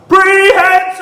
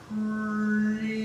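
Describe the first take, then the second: First: The word is said very loudly. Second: The word is said very slowly.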